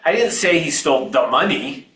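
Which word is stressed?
money. The word 'money' carries the stress. He took something other than the money. "He stole something, but it wasn't the money"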